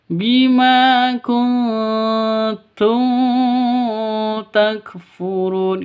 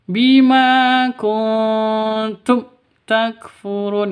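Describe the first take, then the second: First: The 'm' is held and lengthened. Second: The 'm' is cut off abruptly with a jerk. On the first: "tidak boleh dipanjangkan ... itu juga salah" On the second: "tidak boleh disentak ... itu salah"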